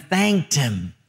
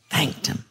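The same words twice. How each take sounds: First: Said in the usual way. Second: Soft, lowered "thanked him"; hushed repeat. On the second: A narrator's reading. Preacher repeating the verse's last words, hushed. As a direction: echo "thanked him" quietly, almost under the breath. Phrase repeated softly for emphasis.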